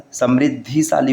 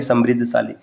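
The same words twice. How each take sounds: First: समृद्धिशाली keeping "dhi" before "shaali"; correct form. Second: समृद्धशाली without "i" before "shaali"; wrong form. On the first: Teacher giving the correct form, clear "dhi" in समृद्धिशाली. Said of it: "न कि समृद्धशाली". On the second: Teacher citing the rejected form, no "i" in समृद्धशाली. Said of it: "न कि". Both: Shown as a demonstration.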